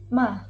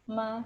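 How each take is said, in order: First: The pitch drops sharply from high to low. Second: The pitch stays high, level and long. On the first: It means to scold. "dimulai dari nada tinggi, kemudian langsung turun ke nada rendah" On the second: It means mother. "nada pertama adalah suara tinggi, datar, dan panjang"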